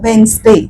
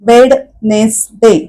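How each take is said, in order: First: The middle d sound is left silent. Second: The middle d sound is clearly pronounced. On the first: The speaker calls it right. "तो ड चा उच्चार करतच नाही" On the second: The speaker calls it wrong. "असं नाही म्हणत आपण"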